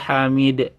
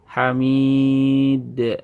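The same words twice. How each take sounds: First: The long vowel is cut short. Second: The long vowel is held for two beats. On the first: The speaker calls it wrong. "Jangan ... kurang mantul ya" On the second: The speaker calls it right. "Tapi hamid dua ayunan"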